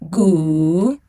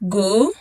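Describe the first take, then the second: First: The pitch dips low, then rises. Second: The pitch rises from mid to high.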